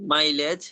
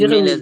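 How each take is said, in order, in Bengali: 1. প্রথম অক্ষরে 'eye' স্বর আছে। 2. প্রথম অক্ষরে ছোট 'i' স্বর আছে। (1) "না মাইলেজ" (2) "মিলেজ না"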